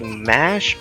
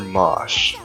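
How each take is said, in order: First: The vowel sounds like the one in cat. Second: The vowel sounds like the one in cot. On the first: This is the English form of the name. "her English name is Mash, like mashed potatoes" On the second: This is closer to the Japanese form of the name. "her Japanese name is Moshu"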